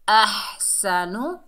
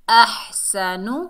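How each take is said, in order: No difference in how they are said.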